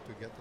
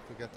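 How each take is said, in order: Both takes have the same delivery.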